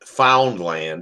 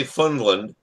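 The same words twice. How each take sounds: First: Foundland said slowly, with the ow and d spelled out; slow, careful Foundland with a clear ow; correct pronunciation Foundland. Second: Funland said with a short u and no d sound; the mistaken Funland, said quickly; wrong pronunciation Funland. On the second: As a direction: say it as Funland, the way others say it. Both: Shown as a demonstration. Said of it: "they say Funland, but it's Foundland".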